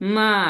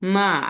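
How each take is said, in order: Both takes have the same delivery.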